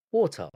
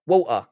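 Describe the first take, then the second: First: "Water" with the t sounded; careful t. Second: "Water" as "wo'uh", t swallowed; London glottal stop. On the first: Streamer trying proper English, "Water" with sounded t. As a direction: pronounce the t in "Water" crisply. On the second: Streamer letting London come out, "Water" without its t. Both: Shown as a demonstration. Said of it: "It comes out of me every now and then".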